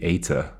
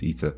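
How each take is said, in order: First: The first vowel is an 'ay' sound. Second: The first vowel is a long 'ee' sound. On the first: "in which case this would be Eta" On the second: "I think the English pronunciation is Eater, which obviously matches with other things like theta and beta"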